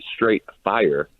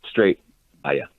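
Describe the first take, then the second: First: 'Fire' ends with a plain 'r' sound. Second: 'Fire' ends with a 'ya' sound, like 'fiya'. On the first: The speaker calls it wrong. "It's not straight fire" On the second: The speaker calls it right. "I'm hearing a Y"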